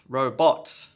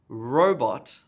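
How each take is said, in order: First: The stress is heavily exaggerated and overdone. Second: The first syllable is stressed, the second weaker. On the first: The speaker calls it wrong. "First common problem is too much stress" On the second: The speaker calls it right. "the emphasis on the first syllable in robot"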